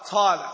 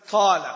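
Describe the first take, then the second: First: The first consonant has a breathy, whispered release. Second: The same.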